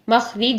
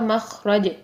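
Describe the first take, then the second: First: The vowel before the final consonant is 'i'. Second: The vowel before the final consonant is 'a'. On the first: The speaker calls it wrong. "मखरिज नहीं बोलेंगे" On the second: The speaker calls it right. "रॉ के ऊपर ज़बर आएगी"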